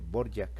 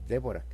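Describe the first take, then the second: First: The name begins with a b sound. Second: The name begins with a d-v sound. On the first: The speaker calls it right. "se dice Borjak" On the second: The speaker calls it wrong. "no se dice"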